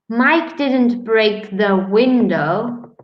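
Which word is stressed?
window. The stress falls on the word window. He broke something other than the window. "He broke the door"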